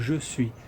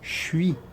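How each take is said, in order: First: Both words are pronounced fully and separately. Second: The two words are squeezed into one syllable. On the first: This is the formal, written form. "o certo seria falar je suis" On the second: This is how native speakers casually say it. "o nativo vai falar suis"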